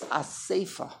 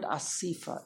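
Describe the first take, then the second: First: "Asefa" with an ay in the middle; correct pronunciation. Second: "Asifa" with an ee in the middle; wrong pronunciation. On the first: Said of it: "It's Asefa". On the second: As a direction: say "Asifa" as a-SEE-fa, softly. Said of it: "There's no such word". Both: Shown as a demonstration.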